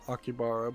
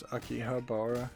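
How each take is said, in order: First: The middle 'ha' syllable is left out. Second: The middle 'ha' syllable is clearly said. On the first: The speaker calls it wrong. "most people pronounce it Akibara" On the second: The speaker calls it right. "but actually it's Akihabara"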